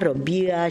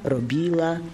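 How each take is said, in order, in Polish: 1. Ł brzmi jak angielskie w. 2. Ł brzmi jak zębowe l. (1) "mówimy, że miauczymy" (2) "Gdyby było przedniojęzykowo-zębowe"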